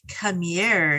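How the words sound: It is said in a sultry, alluring tone. The call is a seductive invitation. "all sexy, sultry"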